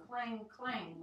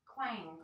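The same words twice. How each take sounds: First: Drawn-out clang, clang; slow clanging. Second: Said in the usual way. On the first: Acted. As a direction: ring out each clang. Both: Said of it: "went the brass-footed pot".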